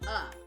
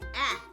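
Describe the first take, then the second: First: The vowel is a weak 'uh' sound. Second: The vowel is a short 'a' sound. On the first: "when you are reading it in a story, the word is uh" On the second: "It has a short vowel sound, which sounds like ah"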